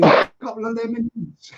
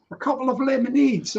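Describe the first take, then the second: First: Repeating it through a laugh. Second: Said in the usual way. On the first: Real, not acted. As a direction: chuckle the words out, amused.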